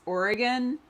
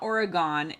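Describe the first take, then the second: First: The last syllable sounds like 'gun'. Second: The last syllable does not sound like 'gun'. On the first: The speaker calls it right. "it's Oregon. Like, would you like me to kill you with a knife or a gun?" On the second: The speaker calls it wrong. "it's not Oregon"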